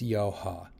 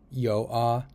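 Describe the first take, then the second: First: A light H sound is heard in the middle. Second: The middle H sound is left out. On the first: The speaker calls it right. "it's yo-ha. ... It's a light H" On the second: The speaker calls it wrong. "It's not Yo-A"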